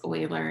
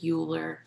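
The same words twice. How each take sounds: First: The name is pronounced unlike its written spelling. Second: The name is pronounced the way it looks spelled. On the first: The speaker calls it right. "but it's Euler" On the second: The speaker calls it wrong. "I know it looks like Euler"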